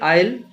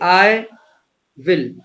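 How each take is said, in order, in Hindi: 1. दोनों शब्द जुड़कर एक ही अक्षर बन जाते हैं। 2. दोनों शब्द अलग-अलग, पूरे-पूरे बोले जाते हैं। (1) "इसके लिए आइल यूज होने लगा है" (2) "जैसे आई विल"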